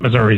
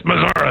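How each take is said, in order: First: Said in the usual way. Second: Missouri said Missour-uh, ending in uh; local Missouri. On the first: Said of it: "it's not Missouri". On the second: Retold or imitated. Correspondent quoting locals' Missour-uh. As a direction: quote the Saint Louis Missour-uh. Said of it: "they'll tell you".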